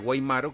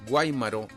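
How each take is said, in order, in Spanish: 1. El acento está en una sílaba posterior. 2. El acento está en la primera sílaba. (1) "que es un apellido" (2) "con acento en la A primero"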